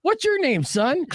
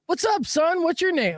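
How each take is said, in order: First: High, corrected mock-fatherly question; patronizing dad. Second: High, mock-fatherly greeting to a grown man; patronizing dad. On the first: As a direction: ask him like a little boy. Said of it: "Oh, I go". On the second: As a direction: talk down to him like a kid. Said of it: "but I go".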